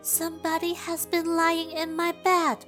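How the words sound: It is said in a tiny, very small voice.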